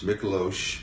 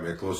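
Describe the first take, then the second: First: The name ends with an sh sound. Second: The name ends with a plain s sound. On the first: This is the original family pronunciation. "There's an invisible H on the end" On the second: This is the everyday version he goes by. "but I go by Miklos"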